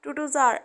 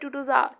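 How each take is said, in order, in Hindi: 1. आखिरी शब्द एक हल्का, नरम 'ar' है। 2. आखिरी शब्द एक हल्का, नरम 'ar' है।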